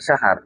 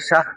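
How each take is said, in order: First: An extra vowel is added before the final r. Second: The final r is left out entirely. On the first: "অনেকে বলতেছে শাহার" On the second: "অনেকে বলছে শাহ"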